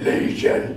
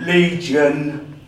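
First: Unvoiced, rasping demon voice; voiceless demonic growl of a name. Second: Booming out the demon's name; demon's answer. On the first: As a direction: rasp it out like a demon. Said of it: "But it was more like". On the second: Retold or imitated. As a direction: announce it loudly, drawn out. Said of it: "And I went".

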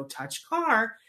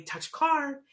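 First: Mock stiff, over-deliberate command; weird deliberate therapist. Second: Higher, upbeat "Touch car"; cheerful bright command to a child; exciting. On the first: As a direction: imitate a robotic drill instruction. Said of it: "they say it in that really weird". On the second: Shown as a demonstration. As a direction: sell "Touch car" like it's a treat. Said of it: "and make it exciting".

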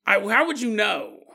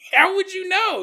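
First: Said in the usual way. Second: Higher, louder incredulous repeat; exclaiming it again, amazed. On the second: Real, not acted. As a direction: push it up in disbelief. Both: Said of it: "repeats question for emphasis".

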